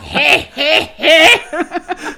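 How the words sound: The laugh is said in a cagey, sinister voice.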